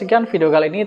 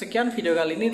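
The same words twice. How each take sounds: First: The voice sounds close and louder. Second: The voice sounds distant and quieter. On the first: "pakai lavalier Boya ini" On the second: "pakai mikrofon bawaan handphone"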